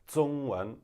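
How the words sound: The first consonant is flat, southern style. "in southern China, where they're more likely to sound like"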